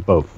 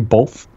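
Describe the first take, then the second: First: The word is said without an L sound. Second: The word is said with an L sound. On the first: This is the current corrected habit. The speaker calls it right. "Now I say both" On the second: This is an old regional habit. The speaker calls it wrong. "I used to say both"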